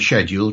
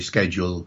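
First: It is said the British way. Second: It is said the American way. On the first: The speaker adapts to a listener who uses the other form. "to Hillary accommodating to her" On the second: The speaker adapts to listeners with American-influenced speech. "accommodating to them"

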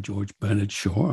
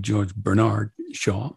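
First: The name is said the British way. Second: The name is said the American way.

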